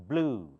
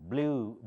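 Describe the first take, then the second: The two takes are said the same way.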